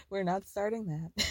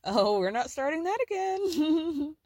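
First: Said in the usual way. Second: Sugary fake-sweet, slow; fake-smile brush-off. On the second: Kris to Chloe, brushing her off with a fake smile. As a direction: smile it on and draw it out. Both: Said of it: "puts on this very fake smile".

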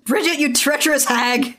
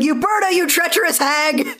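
First: High, mock-indignant cry; hammed-up scolding; mock outrage. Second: Shrill mock outrage. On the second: In the recap, an outraged choir leader accuses Uberta with a hammed-up shriek. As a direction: shriek the accusation like a scandalized lady. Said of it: "It's like".

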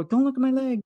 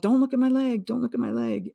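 First: Urgent cry. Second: High, urgent cry; retold yell. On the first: Retold or imitated. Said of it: "So I go". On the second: Injured woman yells at her sister, high and urgent. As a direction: shout it up high in alarm. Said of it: "And I yelled".

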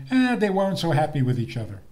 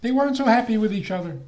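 First: "Eh" shrugged off, fast; dismissive quote. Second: "weren't" punched high and loud, fast; emphatic rebuttal. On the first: Retold or imitated. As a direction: wave it away like a skeptic. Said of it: "Some people say". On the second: Shown as a demonstration. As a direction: hit "weren't" hard and high.

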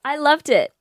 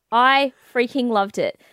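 First: Said in the usual way. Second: Freaking slow and emphatic, each word drawn out; stress on freaking. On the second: Real, not acted. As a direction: lean hard into freaking loved it.

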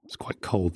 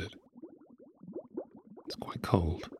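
First: Said in the usual way. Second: Soft echoing repeat; cave echo. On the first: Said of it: "repeated line, second echoed". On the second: Acted. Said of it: "hear the echo of your subconscious".

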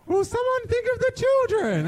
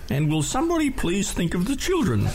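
First: Put-on high, shrill-free pleading old letter writer; mock Green Guide Letters voice. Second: A mildly put-on fussy letter writer; Green Guide Letters voice. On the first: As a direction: imitate the fussy complainer at a high pitch. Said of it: "the Green Guide Letters voice". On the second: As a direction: plead in a lightly voiced complainer. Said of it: "in the Green Guide Letters voice".

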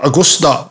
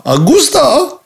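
First: Said in the usual way. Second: High, drawn-out celebratory call; excited exclamation. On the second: Acted. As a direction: sing out the name like a fanfare. Augusta repeated with flourish.

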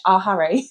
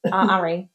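First: Said in the usual way. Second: R Harry with no H, "ah 'arry"; dropped H. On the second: Shown as a demonstration. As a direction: drop the H at the start of Harry in "R Harry". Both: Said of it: "There's no H".

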